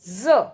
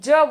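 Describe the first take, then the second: First: The consonant is said the Arabic-Persian way. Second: The consonant is said the ordinary Hindi way. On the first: "जब अपन इसको अरबी फारसी में बोलेंगे" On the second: "अपन तो इसको ज बोलते हैं"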